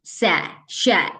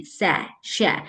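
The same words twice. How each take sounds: First: Drawn-out सै, शै; slow sound drill. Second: सै, शै at normal pace; normal s-sh practice. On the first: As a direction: stretch the two sounds. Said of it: "और दूसरा". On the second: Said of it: "अगर आपको normal practice करनी है". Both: Shown as a demonstration.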